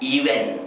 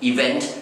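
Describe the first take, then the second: First: It sounds like 'even', without a final t. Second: It ends clearly with a final t sound. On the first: The speaker calls it wrong. "ออกเสียงอาจจะเพี้ยนไปหน่อยนะฮะกลายเป็นออกเสียงว่า" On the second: The speaker calls it right. "ซึ่งจะเรียกน้ำหนักไปที่ตัว e ก่อนนะครับ e แล้วก็ vent"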